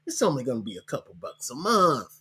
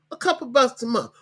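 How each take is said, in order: First: Said in the usual way. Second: "bucks" punched high, much higher pitch; stress on bucks. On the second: Shown as a demonstration. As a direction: repeat it, hitting "bucks" hard and high.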